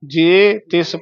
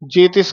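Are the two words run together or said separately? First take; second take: separately; run together. First: The two words are said separately. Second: The two words are run together as one. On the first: The speaker calls it right. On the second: The speaker calls it wrong.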